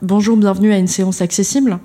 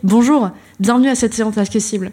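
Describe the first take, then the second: First: The greeting sounds flat and unenthusiastic. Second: The greeting sounds warm and lively.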